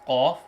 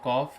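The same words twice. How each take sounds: First: It is said heavily, with a full mouth. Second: It is said lightly, without a full mouth. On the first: The speaker calls it right. "reading the heavy letters properly, such as qaf" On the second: The speaker calls it wrong. "it's not qaf"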